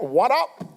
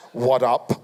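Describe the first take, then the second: First: A touch higher, rising casual greeting; lightly mimicked cool-kid hello; young man's greeting. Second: "What up?" dropped low and heavy, mocking; lightly mocking dude voice. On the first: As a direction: toss off "What up?" brightly, rising at the end. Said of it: "This young man came up to me and went". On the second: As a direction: sneer "What up?" in a deep put-on voice.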